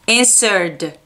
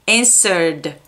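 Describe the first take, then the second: The two takes are said the same way.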